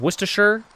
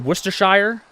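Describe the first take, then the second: First: It is said the non-American way. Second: It is said the American way. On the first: "instead of" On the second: "in the U S I feel like we say"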